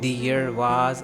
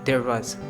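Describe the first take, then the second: First: The first word sounds like two parts, 'the ear'. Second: The first word sounds like one syllable, 'dare'. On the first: The speaker calls it wrong. "वो ये नहीं कहेगा" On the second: The speaker calls it right. "आज का native speaker ऐसे बोलेगा"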